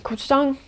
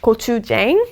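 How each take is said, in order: First: It is pronounced with native Korean sounds. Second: It is pronounced with Americanized English sounds. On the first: The speaker calls it right. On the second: The speaker calls it wrong.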